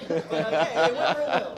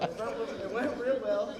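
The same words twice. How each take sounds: First: Words squeezed out through laughter; laughing. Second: Said in the usual way. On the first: Real, not acted. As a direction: laugh while saying it's going great. Laughing through ironic punchline.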